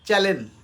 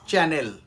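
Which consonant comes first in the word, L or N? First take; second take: L; N. First: The L sound comes before the N sound. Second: The N sound comes before the L sound. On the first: The speaker calls it wrong. "আমরা আমাদের অজান্তেই শব্দটা বলে থাকি" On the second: The speaker calls it right. "প্রোনাউন্সিয়েশন হবে চ্যানেল"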